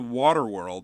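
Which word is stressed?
water. The stress falls on the word water. "I put the emphasis on water"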